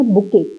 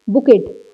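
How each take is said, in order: First: बुके said as "bu-kay", with no t at the end; correct pronunciation. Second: बुकेट said as "bu-ket", with the final t sounded; बुकेट with a hard t at the end, the wrong way; wrong pronunciation. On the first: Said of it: "इसको पढ़ना है बुके". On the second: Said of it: "अब इसको बुकेट नहीं पढ़ना". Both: Shown as a demonstration.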